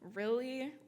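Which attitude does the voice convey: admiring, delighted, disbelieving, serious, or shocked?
disbelieving. It sounds doubtful and disbelieving. The speaker does not believe what was said. "As in, I don't believe you"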